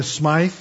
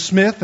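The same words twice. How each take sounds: First: Smythe with a long "eye" vowel; mispronounced Smith. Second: Said in the usual way. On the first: Shown as a demonstration. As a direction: turn Smith into Smythe, rhyming with scythe. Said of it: "we're gonna call you Smythe". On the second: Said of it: "if your name is Smith".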